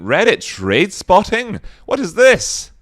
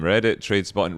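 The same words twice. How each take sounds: First: High, loud incredulous question; hammed-up disbelief; mock astonishment. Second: Said in the usual way. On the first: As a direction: leap up in pitch, baffled. Repeats name in mock astonishment.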